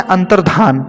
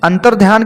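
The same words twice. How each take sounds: First: अंतर्धान with no y, "antardhaan"; corrected अंतर्धान. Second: अंतर्ध्यान with a y, "antardhyaan"; mispronounced अंतर्ध्यान. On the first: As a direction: go straight from dh to aa in अंतर्धान. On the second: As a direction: sound the y in अंतर्ध्यान. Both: Shown as a demonstration. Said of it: "की जगह होता है".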